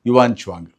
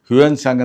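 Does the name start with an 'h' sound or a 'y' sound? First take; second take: y; h. First: The name starts with a 'y' sound. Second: The name starts with an 'h' sound. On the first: The speaker calls it right. "ಸರಿಯಾದ ಒಂದು ಉಚ್ಚಾರಣೆ" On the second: The speaker calls it wrong. "ಹ್ಯುಯನ್ ಸಾಂಗ್ ಅಂತ ಹೇಳ್ತಾ ಇದ್ರು"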